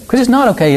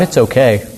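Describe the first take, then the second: First: "not" punched much higher in pitch; stress on not. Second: Said in the usual way. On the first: Real, not acted. Preacher rejects saying it's okay, high stress on "not". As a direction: hit "not" high to correct the easy answer. Correcting the easy phrase.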